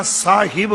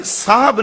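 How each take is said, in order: First: ਸਾਹਿਬ in two syllables, saa-hib; careful correct pronunciation. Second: ਸਾਹਬ squeezed into one syllable, saab; mispronunciation shown. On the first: Preacher showing the proper reading, careful saa-hib. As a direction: sound the short i in ਸਾਹਿਬ. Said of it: "ਸਾਹਿਬ ਪੜ੍ਹਨਾ ਹੈ". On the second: Preacher showing what not to read, contracted saab. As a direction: leave out the i, saying saab for ਸਾਹਬ. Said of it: "ਸਾਹਬ ਨਹੀਂ ਪੜ੍ਹਨਾ". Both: Shown as a demonstration.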